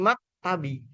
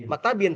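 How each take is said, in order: First: MAK TABI ending on an open i; ending without tanwin. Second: MAKTABIN closed on a final n; tanwin ending. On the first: Teacher correcting to the form after alif lam, open ending. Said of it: "tapi mak tabi". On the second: Teacher showing the form barred after alif lam, tanwin ending. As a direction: end "maktabin" in -bin. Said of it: "tidak boleh". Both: Shown as a demonstration.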